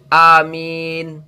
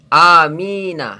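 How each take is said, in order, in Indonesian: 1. Kata ini berakhir dengan bunyi n tanpa vokal. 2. Kata ini berakhir dengan vokal setelah bunyi n.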